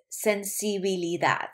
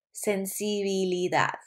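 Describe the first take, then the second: No difference in how they are said.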